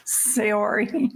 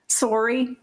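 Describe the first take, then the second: First: Saori said as "say-OR-ee"; unsure pronunciation. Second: Sori said as "SOR-ee", two syllables; unsure pronunciation. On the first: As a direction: try Saori as "say-oh-ree", with a say sound first. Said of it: "heard it pronounced a number of different ways". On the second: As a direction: try Sori run together like "sorry". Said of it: "What's her name?". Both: Shown as a demonstration.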